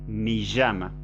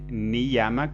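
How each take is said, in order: First: The y has a hissing, sh-like sound. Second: The y is a plain i sound. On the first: The speaker calls it wrong. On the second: The speaker calls it right.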